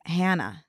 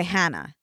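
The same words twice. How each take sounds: First: "Hannah" with the newer, moved-away A; changed A. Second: Put-on "Hannah" with the old Philly A, as in "hat". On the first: Showing friends how they say it since moving, changed A in "Hannah". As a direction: say "Hannah" with the A that replaced the Philly one. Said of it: "now I've noticed myself saying". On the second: Showing friends how they used to say it, Philly A in "Hannah". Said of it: "noticeable way of saying my A's". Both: Shown as a demonstration.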